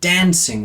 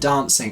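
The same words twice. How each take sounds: First: The vowel sounds American, with a flat a. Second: The vowel sounds British, with a broad a. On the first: This is how the actress said it. The speaker calls it wrong. "it was the R vowels every time. It was like dancing" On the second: This is how it should sound. The speaker calls it right. "rather than dancing"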